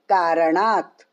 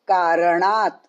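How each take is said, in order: The two takes are said the same way.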